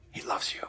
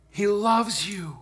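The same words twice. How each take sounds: First: Hushed, whispered assurance; tender whisper. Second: Slow, tender declaration; tender assurance. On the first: Preacher repeats God's love to congregation, tenderly whispered. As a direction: drop to a whisper to let it sink in. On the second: Preacher assures congregation of God's love, slow and tender. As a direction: let each word land slowly. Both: Real, not acted.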